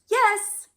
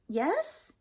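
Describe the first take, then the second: First: The pitch falls at the end. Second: The pitch rises at the end. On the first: The speaker is ready and sure of it. "your intonation goes down" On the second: The speaker is unsure whether they are ready. "your intonation is going up"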